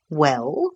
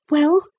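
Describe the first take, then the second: First: Adult man's questioning echo, rising at the end; captain. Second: Put-on high-pitched, rising boy's query; expectant boy. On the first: Captain returning the boy's question, expectant. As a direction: toss the question back as an officer. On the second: Boy waiting on the captain, expectant. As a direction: prompt expectantly as a small boy. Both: A narrator's reading.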